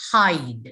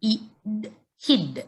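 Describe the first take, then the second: First: Hide with a drawn-out "eye", falling low; long I. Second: Id, then hid, with a brief "ih"; short I. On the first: Teacher reads the magic E word, hide with long "eye". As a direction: stretch the vowel in hide to "eye". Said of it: "So it becomes". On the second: Teacher sounds out the word, hid with short "ih". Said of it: "becomes long". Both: Shown as a demonstration.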